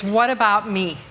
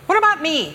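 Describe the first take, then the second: First: Said in the usual way. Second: High, whiny "me" drawn into a complaint; whiny child's catchphrase. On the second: Shown as a demonstration. Mother demonstrating the family saying to church, high kiddie whine. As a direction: pipe up like a slighted little twin. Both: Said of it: "You kinda gotta say it like that".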